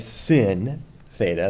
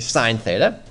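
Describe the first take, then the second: First: The first word rhymes with 'pin'. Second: The first word rhymes with 'line'. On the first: The speaker calls it wrong. "Please do not say sin theta. That's not what that says" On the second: The speaker calls it right. "We're going to say sine theta"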